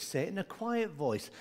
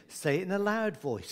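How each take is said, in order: First: Softer demo of a quiet voice; gently hushed, still voiced. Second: Understated demo of a loud voice; mildly projected teaching voice. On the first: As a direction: drop the volume for children to copy. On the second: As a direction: lightly model saying it loud, for children to copy. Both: Shown as a demonstration.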